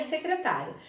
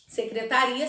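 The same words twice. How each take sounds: First: "secretária" with the weight on TÁ; stress on TÁ. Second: "Secretaria" with the weight on RI; stress on RI. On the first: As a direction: lean on the open TÁ in "secretária". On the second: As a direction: lean on RI in "Secretaria". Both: Shown as a demonstration. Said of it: "aquilo que as diferenciam são acentos".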